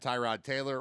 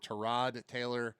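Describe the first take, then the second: First: Tyrod is said the commonly used way. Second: Tyrod is said his own preferred way. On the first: The speaker calls it wrong. "we had it wrong the whole time he was here" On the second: The speaker calls it right. "as he prefers to be called"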